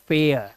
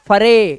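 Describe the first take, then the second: First: The word is said as one syllable, fare. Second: The word is said as two syllables, fa-re. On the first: The speaker calls it right. "It's फेयर" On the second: The speaker calls it wrong. "And not फरे"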